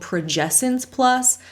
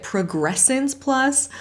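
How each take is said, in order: First: The name is said without an R after 'prog'. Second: The name is said with an R after 'prog'. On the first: The speaker calls it right. "it's actually called progescence plus" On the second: The speaker calls it wrong. "she keeps adding an R in there"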